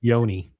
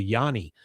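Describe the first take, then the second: First: "yoni" said as YOH-nee; "yoni" pronounced to rhyme with pony; corrected pronunciation. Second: "yoni" said as YAH-nee; "yoni" misread to rhyme with Johnny; mispronounced. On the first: Shown as a demonstration. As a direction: say "yoni" with a long "oh" first. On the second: Retold or imitated. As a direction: say "yoni" with an "ah" in the first syllable. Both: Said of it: "I think it's supposed to be yoni".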